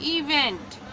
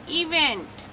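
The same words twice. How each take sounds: First: इवेंट repeated a little softer, same clear fall; careful repeat. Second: इवेंट said clearly with a falling end; model pronunciation. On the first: Teacher repeating इवेंट for students to copy. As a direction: echo इवेंट once more for practice. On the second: Teacher giving the pronunciation of इवेंट to students. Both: Shown as a demonstration. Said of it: "क्या हो जाएगा pronunciation".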